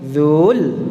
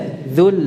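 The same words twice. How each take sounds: First: The vowel is drawn out long. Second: The vowel is kept short. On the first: The speaker calls it wrong. "tanpa harus dipanjangkan dzul atau dzul" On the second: The speaker calls it right. "Jadi pendek saja"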